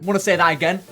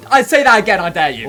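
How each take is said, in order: First: Said in the usual way. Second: Loud mock dare; loud taunt. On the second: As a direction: bark the dare like a tough guy.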